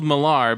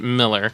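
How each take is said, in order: First: The name ends with an 'ar' sound. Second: The name ends with an 'er' sound. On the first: "It's spelled Millar" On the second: "but he pronounces it Miller"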